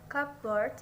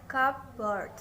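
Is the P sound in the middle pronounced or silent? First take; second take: silent; pronounced. First: The P sound in the middle is silent. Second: The P sound in the middle is pronounced. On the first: The speaker calls it right. "always pronounced" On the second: The speaker calls it wrong.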